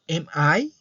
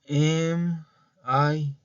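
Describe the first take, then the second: First: The pitch rises at the end. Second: The pitch stays flat at the end. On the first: It is heard as a question. The speaker calls it right. "como que elevo un poquito el tono de voz" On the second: It is not heard as a question. The speaker calls it wrong. "pues eso no es una pregunta"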